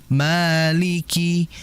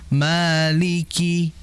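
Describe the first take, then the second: The two takes are said the same way.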